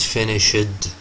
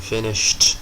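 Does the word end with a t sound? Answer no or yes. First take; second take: no; yes. First: The word does not end with a t sound. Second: The word ends with a t sound. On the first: The speaker calls it wrong. "not finished" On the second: The speaker calls it right. "It ends with t sound"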